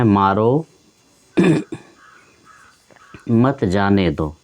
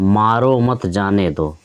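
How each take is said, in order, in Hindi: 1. विराम शब्द 'maro' के बाद आता है। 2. विराम शब्द 'mat' के बाद आता है। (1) "दूसरे वाले वाक्य में देखिए मारो यानी कि उसको मारिए, मत जाने दो" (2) "पहले वाले वाक्य में मारो मत, मारिए मत, जाने दो, जाने दीजिए"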